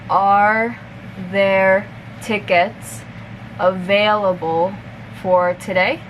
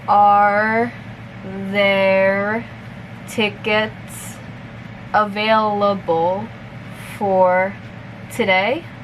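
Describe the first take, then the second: First: The sentence is spoken at a moderate pace. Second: The sentence is spoken very slowly. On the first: "a little bit faster" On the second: "I'll repeat it slowly first"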